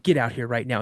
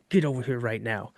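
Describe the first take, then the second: First: Said in the usual way. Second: Low, softer, through clenched teeth; a quiet, seething mock threat; gritted teeth. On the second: Dad ordering his son over, low and seething through gritted teeth. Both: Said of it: "he's gritting his teeth".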